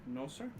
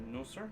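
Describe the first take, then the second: Both takes have the same delivery.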